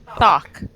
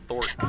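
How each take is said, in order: First: The name is said without an R sound. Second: The name is said with an R sound. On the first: The speaker calls it right. "No R" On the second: The speaker calls it wrong. "Fuck, I can't do it"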